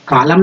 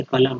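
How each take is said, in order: First: कालम, first syllable lengthened as a mistake; wrong long vowel. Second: कलम with a short क, not का; कलम, stressed क without lengthening it; short first vowel. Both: Shown as a demonstration. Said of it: "कालम नहीं है".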